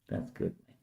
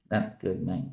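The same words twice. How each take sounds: First: A soft unvoiced whisper. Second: Said in the usual way. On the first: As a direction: breathe it out with no voice. Repeated praise, whispered.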